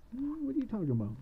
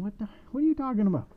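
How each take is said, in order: First: High-pitched baffled question; puzzled, pitched well up; puzzled witch. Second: Loud, high, rapid exasperation; exasperated shout from a baffled witch. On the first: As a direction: ask it high, at a normal volume. Witch annoyed at being questioned. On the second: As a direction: call it out high and fast. Witch with head in the oven. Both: Acted.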